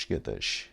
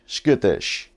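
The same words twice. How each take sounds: First: Whispered skittish. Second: Loud skittish. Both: Pretend. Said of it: "Would you be happy being skittish".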